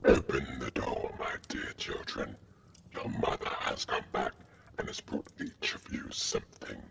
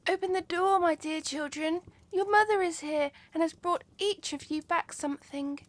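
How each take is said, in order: First: The wolf's voice sounds rough and hoarse. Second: The wolf's voice sounds soft and gentle.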